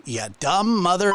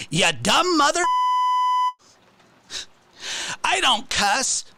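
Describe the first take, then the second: First: A hint of his jeer, slightly higher; lighter imitation. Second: High, jeering mock insult. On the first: Quoting how the streamer says it, lightly imitated. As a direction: toss off his insult again, only lightly voiced. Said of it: "That's how he says it too".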